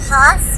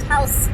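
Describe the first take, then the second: First: It is said in an unusual, non-English way. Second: It is said just like English 'house'. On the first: The speaker calls it wrong. "it's not Haus or anything weird" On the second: The speaker calls it right. "it is house, so just house"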